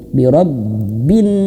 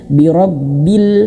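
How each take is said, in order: First: The word ends with an n sound. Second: The word ends with an l sound. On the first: The speaker calls it right. "langsung ke huruf nun" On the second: The speaker calls it wrong. "jangan sampai salah ya"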